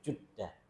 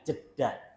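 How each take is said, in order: First: The first syllable has an u vowel. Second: The first syllable has a vowel other than u. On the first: The speaker calls it right. "Pakai pakai dhammah" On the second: The speaker calls it wrong. "Bukan Jeddah"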